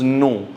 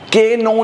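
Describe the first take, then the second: First: No k sound is pronounced before the n. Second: A k sound is pronounced before the n. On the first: The speaker calls it right. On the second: The speaker calls it wrong.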